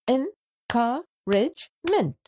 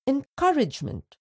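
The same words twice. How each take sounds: First: Encouragement said slowly, part by part; slow syllables. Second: Said in the usual way. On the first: Shown as a demonstration. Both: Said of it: "Let's split the given words into syllables".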